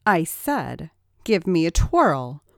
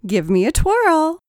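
First: Firm repeated order; stern repeat of the demand. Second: High, loud playful demand; sing-song tease, high and loud; teasing. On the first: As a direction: lay down the command. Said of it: "ordered Rachel". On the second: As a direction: coax a twirl with a grin. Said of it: "teased Rachel". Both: A narrator's reading.

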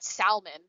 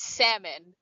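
First: Salmon with the L sounded, "sal-mon"; L pronounced. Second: Salmon with a silent L, "sam-un". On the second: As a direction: drop the L in salmon. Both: Shown as a demonstration. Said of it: "it's not salmon, but it's salmon".

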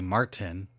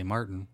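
First: "Martin" with a clear T; hard T Martin. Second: "Martin" with a glottal stop for the T. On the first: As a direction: hit the T in "Martin". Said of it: "you hit the T". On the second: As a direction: swallow the T in "Martin". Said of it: "it's a glottal stop". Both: Shown as a demonstration.

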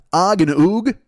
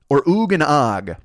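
First: Said in the usual way. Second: Slow, deliberate "Or Oog and Og?"; drawn-out "Or Oog and Og?" to compare the ring; slower, weighing it. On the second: Shown as a demonstration. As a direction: say "Oog and Og" slowly as if tasting the sound. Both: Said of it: "what sounds better".

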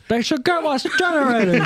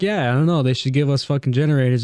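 First: Much higher, put-on Native American meeting accent; mock Native American accent. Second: Said in the usual way. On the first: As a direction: switch into an exaggerated Native American public-speaking accent. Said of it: "Twenty years turns back on the accent". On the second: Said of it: "he talked to them at dinner time".

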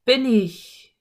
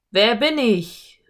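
First: Drawn-out echo, still loud; distant echo. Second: Slow, loud, drawn-out call. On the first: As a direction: echo the call back from afar. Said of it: "ertönte eine entfernte Stimme". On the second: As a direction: call into the canyon to raise an echo. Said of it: "rief er mit lauter Stimme". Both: A narrator's reading.

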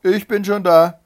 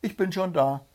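First: High, loud triumphant call. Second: High, lightly raised call; demonstrated call. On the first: Wife greeting the arriving hare, loud call. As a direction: call it right out across the field. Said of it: "rief ihm". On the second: Hedgehog rehearsing the call with his wife, restrained call. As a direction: show her how to call it, held back. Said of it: "so rufst du ihm entgegen". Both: A narrator's reading.

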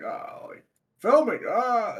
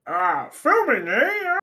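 First: Second, understated try at a frog president; lightly voiced comic frog impression; Kermit Obama. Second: Terrible comic frog impression, drawn out with a swooping high tail; badly faked froggy presidential voice, stretched slowly; Kermit Obama. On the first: Redoing the bad impression for friends, lightly voiced frog president. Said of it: "my favorite fucking Kermit Obama impression". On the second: Crashing the filming as a frog president, terrible drawn-out impression. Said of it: "Kermit Obama impression ... that was a terrible impression".

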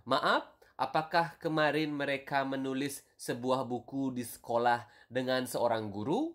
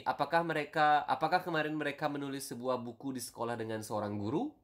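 First: Careful model reading. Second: Quick natural read of the question; fluent everyday Indonesian pace; normal speed. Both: Shown as a demonstration. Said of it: "the normal version would be".

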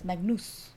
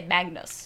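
First: Magnus in German, "MAG-noos"; German pronunciation. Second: Magnus in English, "MAG-nuss"; English pronunciation. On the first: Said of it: "in the German". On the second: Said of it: "In English, we'd say". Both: Shown as a demonstration.

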